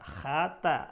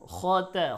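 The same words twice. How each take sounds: First: খা said light with an open "aa" vowel, then তা; thin kha. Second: খ said heavy from the throat with an o-like vowel, then light তা; thick kha. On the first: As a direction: flatten খা to a bright "khaa" before তা. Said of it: "এরকম বলা যাবে না". (খা পাতলা আ-কার দিয়ে) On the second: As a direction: round and darken খ before তা. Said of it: "খর উচ্চারণ মোটা". (খ মোটা করে, তা হালকা) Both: Shown as a demonstration.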